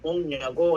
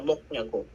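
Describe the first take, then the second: First: The first word ends in an ng sound. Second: The first word ends in a k sound. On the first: The speaker calls it right. "Pronounce guys as mong" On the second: The speaker calls it wrong. "hindi siya mok nyago"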